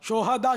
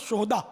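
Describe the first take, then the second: First: The h sound is followed by a vowel. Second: The h sound carries no vowel, closing the syllable. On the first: It means martyrs. "शोहदा शहीद की जमा है" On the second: It means scoundrels. "हा को अगर साकिन पढ़े"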